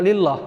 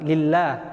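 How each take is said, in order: First: The L sound is heavy and dark. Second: The L sound is light and thin. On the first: The speaker calls it wrong. "Kan enggak lillah" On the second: The speaker calls it right. "maka lam di lafadz Allah itu dibaca tarkik"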